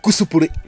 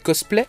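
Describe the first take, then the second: First: The word is said with Japanese pronunciation. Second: The word is said with French pronunciation.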